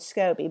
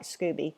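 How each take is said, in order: First: The first vowel sounds like 'oh'. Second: The first vowel sounds like 'oo'. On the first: The speaker calls it right. "you're supposed to call it SCOBY" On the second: The speaker calls it wrong. "I like Scooby better"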